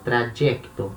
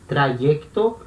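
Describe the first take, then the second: First: The middle consonant is a j sound. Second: The middle consonant is a soft y-glide. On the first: "como se fosse um, um, um D J" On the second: "como se fosse um i"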